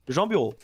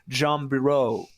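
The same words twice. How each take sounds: First: The name is said with a French accent. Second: The name is said with an English accent. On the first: "in French, it's just Jean Bureau" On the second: "I think you say it like Jean Bureau"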